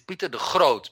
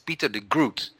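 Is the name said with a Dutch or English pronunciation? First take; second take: Dutch; English. First: The name is said with Dutch sounds. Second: The name is said with English sounds. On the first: The speaker calls it right. "When in Dutch it is" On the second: The speaker calls it wrong. "for you it is"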